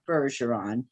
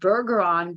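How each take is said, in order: First: The G is pronounced soft. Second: The G is pronounced hard. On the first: The speaker calls it right. "it's a soft G, and it is indeed" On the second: The speaker calls it wrong. "I thought it might be Bergeron, but no"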